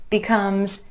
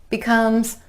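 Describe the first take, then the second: No difference in how they are said.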